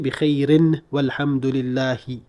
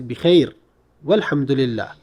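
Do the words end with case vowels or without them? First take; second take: with; without. First: Both words end with added final vowels. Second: Both words end without any final vowels. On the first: The speaker calls it wrong. "I do not need to say bikhairin walhamdulillahi" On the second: The speaker calls it right. "you say bikhair walhamdulillah, and that's sufficient"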